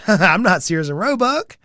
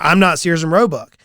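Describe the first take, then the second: First: It is said in a light, joking tone. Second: It is said in a firm, assertive tone. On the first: The statement is meant as a joke. "in jest" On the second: The statement is meant seriously. "in an affirmative manner"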